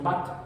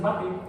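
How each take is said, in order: First: The word ends with a consonant sound. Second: The word ends with an added vowel sound. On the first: "bat nos cuesta más trabajo a los hispanoparlantes" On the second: "Se suaviza agregando una vocal al final, típicamente la E"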